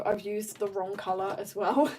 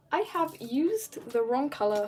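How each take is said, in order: First: Said in the usual way. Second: "I have used" spelled out in full, pitched higher; mock-dramatic restatement. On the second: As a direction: repeat it with laughing emphasis on "have used". Repeats the admission with mock drama.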